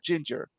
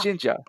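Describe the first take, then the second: First: The word ends with an r sound. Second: The word ends in a plain vowel, no r. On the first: "they call this hair color ginger" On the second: "but they pronounce it as"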